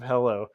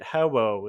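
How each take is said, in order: First: The middle consonants sound like L. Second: The middle consonants sound like W.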